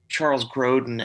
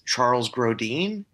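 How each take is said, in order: First: The name is said in a plain English way. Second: The name is said with a fancy French-like sound. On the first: This is the actual name. The speaker calls it right. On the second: It sounds pretentious, like a fine dining name. The speaker calls it wrong.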